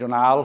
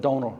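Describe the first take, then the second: First: The name is said with French-style stress. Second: The name is said the Irish way, long O. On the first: "I go to France and they call me Donal because they put different emphasis in different syllables" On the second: "So I'm a Donal"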